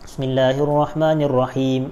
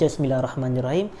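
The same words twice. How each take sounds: First: The phrase is said loudly and clearly. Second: The phrase is said quietly and softly. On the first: The basmalah is recited aloud like the rest of the recitation. "dibacanya secara kuat bacaan basmalah itu" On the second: The basmalah is recited silently before the loud recitation. "tapi bacaannya itu perlahan"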